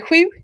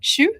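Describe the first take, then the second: First: It is said with a Swedish pronunciation. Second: It is said with an eastern Norwegian pronunciation. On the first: "In Swedish, they'd say sju" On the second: "bokmål in east of Norway, they would call that sju"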